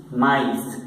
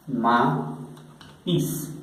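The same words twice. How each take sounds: First: "maíz" run together as ma-is, ending in S; French "maíz": two vowels, no pause between; both vowels sounded. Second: "maíz" split in two, "ma... is", with a pause; vowels separated. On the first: ("maíz" seguido, ma-is, sonando las dos vocales) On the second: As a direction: slowly demonstrate "maíz" as ma, then is. ("maíz" por separado: ma... is) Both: Shown as a demonstration. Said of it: "se va a pronunciar por separado".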